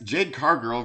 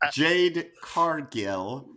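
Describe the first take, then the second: First: The surname sounds like "car girl". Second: The surname is said carefully as "Cargill". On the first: The speaker calls it wrong. "You said card girl" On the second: The speaker calls it right. "Let me let me enunciate"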